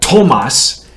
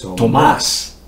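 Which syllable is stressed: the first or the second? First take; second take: first; second. First: The stress is on the first syllable. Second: The stress is on the second syllable. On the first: The speaker calls it wrong. "instead of Tomas" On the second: The speaker calls it right. "it goes on the secondary vowel"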